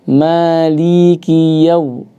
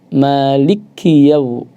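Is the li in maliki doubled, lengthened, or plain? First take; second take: lengthened; doubled. First: The li vowel is drawn out long. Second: The l sound is doubled and pressed hard. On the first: "ada yang memanjangkan" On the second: "membaca dengan ditasydidkan"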